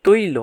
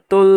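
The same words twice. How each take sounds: First: তৈল as "toi-lo", with an oi glide; correct diphthong. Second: তোল as "tol", with a plain o; spelling-based variant. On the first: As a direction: model তৈল in two syllables, toi then lo. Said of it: "আমরা উচ্চারণ করি তৈল". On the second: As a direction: show তোল with no i glide. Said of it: "তোল বা তৈল এরকম হয়". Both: Shown as a demonstration.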